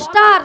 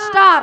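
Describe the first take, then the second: First: The word starts with an s sound. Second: The same.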